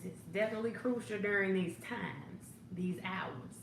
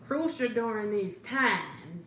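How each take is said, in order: First: "definitely" punched, then settling back to normal volume; stress on definitely. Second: "Crucial" drawn out slow and louder, the rest slower; stress on crucial. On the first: Hostess agreeing again, weight on "definitely". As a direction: hit "definitely", let the rest fall. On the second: Hostess riffing on a viewer's Zumba, stretching "Crucial". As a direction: lean hard on "Crucial" and take it slow. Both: Shown as a demonstration. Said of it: "That Zumba is crucial now".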